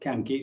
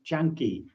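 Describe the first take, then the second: First: The word begins with a hard k sound. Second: The word begins with a ch sound. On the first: The speaker calls it wrong. "I mispronounced the word. It's not kanki" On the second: The speaker calls it right. "the C in uh, Pali is a ch"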